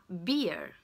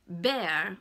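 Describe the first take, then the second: First: Beer with a long EE; beer, stretched EE then R; long ee vowel. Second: Bear, open EH vowel, a bit louder; open air vowel. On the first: Teacher contrasts beer with bear for learners, long EE. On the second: Teacher contrasts bear with beer for learners, open vowel. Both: Shown as a demonstration. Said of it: "par comparaison à beer".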